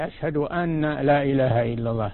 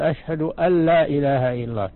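First: The n is pronounced separately before la. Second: The n merges into a doubled l sound. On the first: The speaker calls it wrong. "الأول ما هو صحيح" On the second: The speaker calls it right. "تدغم النون في اللام مشددة"

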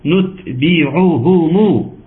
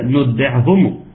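First: The final u-vowels are fully and clearly pronounced. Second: The final u-vowels are slurred and reduced. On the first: The speaker calls it right. "إنما أنا عاوزها إيه" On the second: The speaker calls it wrong. "بنسمعها كتير"

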